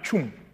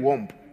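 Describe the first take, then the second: First: The name begins with a ch sound. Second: The name begins with a w sound. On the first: The speaker calls it right. "The name is actually pronounced as CH" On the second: The speaker calls it wrong. "How can they call my name Womb?"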